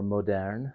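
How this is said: It is said with a French-style pronunciation.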